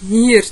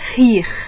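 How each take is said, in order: First: It is said in a São Paulo city accent. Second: It is said in a Northeastern Brazilian accent. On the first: "na capital paulista é mais ou menos" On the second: "No Nordeste é"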